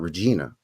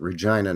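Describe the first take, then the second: First: Regina is said the classical Latin way. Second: Regina is said the local Canadian way. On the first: This is how the Latin word is said. The speaker calls it wrong. "not Regina" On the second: This is how the city's people say it. The speaker calls it right. "we pronounce it Regina"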